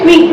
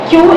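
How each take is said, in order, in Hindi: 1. यह शब्द 'kwee' की तरह बोला जाता है। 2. यह शब्द 'kyoo' की तरह बोला जाता है। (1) "गलत प्रोनाउंसिएशन हम क्या करते हैं" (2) "क्यू एक वर्ड है"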